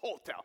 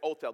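First: It is said English-style with a pronounced H. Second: It is said French-style with a silent H.

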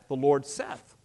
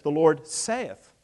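First: The last word rhymes with 'Beth'. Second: The last word rhymes with 'faith'. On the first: "You're saying Seth" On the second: "It's the Lord saith"

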